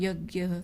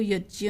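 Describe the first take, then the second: First: It uses the common everyday pronunciation. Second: It uses the strict traditional pronunciation. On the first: The speaker calls it wrong. "कई जगह यज्ञ का ही क्या रूप क्या कहते हैं" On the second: The speaker calls it right. "जो शुद्ध शब्द उच्चारण करना हो तो वो यज्ञ"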